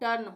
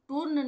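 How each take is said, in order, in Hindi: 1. यह स्वर छोटी 'uh' ध्वनि है। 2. यह स्वर लंबी 'oo' ध्वनि है। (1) "टर्न होगा, यानी अ का उच्चारण होगा" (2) "इसका उच्चारण टूर्न नहीं होगा"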